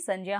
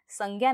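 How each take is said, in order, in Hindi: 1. बीच का संयुक्त अक्षर 'jya' की तरह बोला जाता है। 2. बीच का संयुक्त अक्षर 'gya' की तरह बोला जाता है। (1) "सही उच्चारण ... ज्य" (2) "इसका उच्चारण ज्ञ नहीं होता है"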